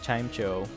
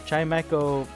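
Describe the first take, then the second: First: The ending does not sound like 'echo'. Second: The ending sounds like the word 'echo'. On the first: The speaker calls it wrong. "I've been saying Chimecho" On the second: The speaker calls it right. "Chimecho makes a lot more sense um, because Echo has something to do with sound"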